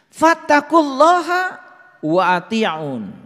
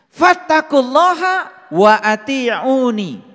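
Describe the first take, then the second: First: The last word ends without a final vowel. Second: The last word ends with a final 'i' vowel. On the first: The speaker calls it wrong. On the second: The speaker calls it right.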